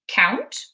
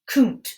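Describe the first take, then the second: First: The vowel sounds like 'ow' as in out. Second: The vowel sounds like 'oo' as in moon. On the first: This makes a real word. The speaker calls it right. "k, ount, count" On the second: This does not make a real word. The speaker calls it wrong. "or k, oont, coont"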